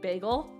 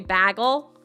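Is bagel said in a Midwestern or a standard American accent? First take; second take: standard; Midwestern. First: It is said with a standard American vowel. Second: It is said with a Midwestern American vowel. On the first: "instead of bagel" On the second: "that's how the Midwest people say it. They also say bagel"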